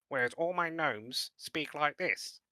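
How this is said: It is said in a squeaky voice.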